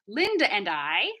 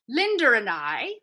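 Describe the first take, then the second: First: A glottal stop separates 'Linda' and 'and'. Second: An R sound links 'Linda' and 'and'. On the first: "in my accent, I would use a glottal stop" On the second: "British accent. ... no glottal stop there"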